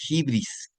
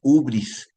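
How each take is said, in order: First: It begins with an i vowel. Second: It begins with a bare u vowel. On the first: "también se puede decir de hibris" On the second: "Otros ubris"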